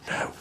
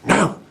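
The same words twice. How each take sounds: First: It is a soft, quiet whisper. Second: It is a loud, partly whispered exclamation.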